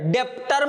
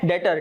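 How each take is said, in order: First: It is said with a 'b' sound. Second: It is said with no 'b' sound. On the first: The speaker calls it wrong. "डेप्टर मत कहना उसको बेटा" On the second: The speaker calls it right. "यहां पे बी silent है"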